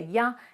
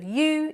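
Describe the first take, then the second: First: The word is reduced to a weak form. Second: The word is said in its full form. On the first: "you hear ya" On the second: "instead of you"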